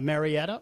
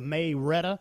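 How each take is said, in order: First: It is said with a general American pronunciation. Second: It is said the Georgia local way, 'May-retta'.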